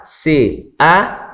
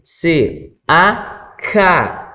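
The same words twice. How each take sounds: First: C even, A lifted and left open; cue to answer. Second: C, then A raised, then ca; teacher's chanted pattern closing on ca; resolved syllable drill. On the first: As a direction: raise A and wait. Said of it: "o aluno ca". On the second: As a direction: spell C, lift A, complete with ca. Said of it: "Então, fez lá". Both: Shown as a demonstration.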